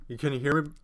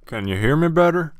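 First: Said in the usual way. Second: Loud, higher, rising question; louder mic check. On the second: Shown as a demonstration. Streamer testing a new mic with viewers, loud. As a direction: belt it out to test the mic.

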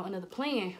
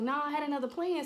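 First: Said in the usual way. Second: Higher insistent protest; defensive re-enacted insistence; insistent excuse. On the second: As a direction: push the excuse with raised pitch. Excuse repeated to dad.

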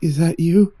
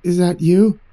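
First: A hint of an eerie, mechanical mimic; lightly voiced uncanny copy of a frightened boy asking; faintly robotic, off-kilter question. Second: Off-kilter tone. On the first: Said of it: "higher pitched and almost, almost mechanical". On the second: Acted. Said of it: "the same off-kilter tone, but wasn't quite so high-pitched".

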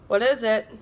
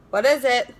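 First: Said in the usual way. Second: A slightly odd, put-on wondering; puzzled. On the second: Real, not acted. Puzzling over the tiny taped product, in a quirky voice. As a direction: ask it in a quirky, off-kilter way.

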